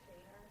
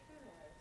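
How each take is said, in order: First: The vowel sounds like 'ay', Michigan style. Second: The vowel is a rounded German 'ö'.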